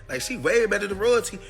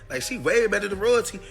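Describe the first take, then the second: The two takes are said the same way.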